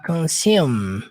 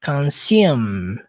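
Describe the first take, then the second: First: The word ends on a closed m sound. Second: The word ends on a closed m sound.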